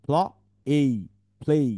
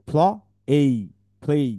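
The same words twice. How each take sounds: The two takes are said the same way.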